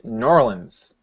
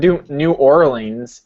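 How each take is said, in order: First: The name is squeezed into two short syllables. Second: The name is said in full, word by word. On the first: Locals say it this way. The speaker calls it right. "it's Norlands" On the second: Outsiders say it this way. The speaker calls it wrong. "Not New Orleans"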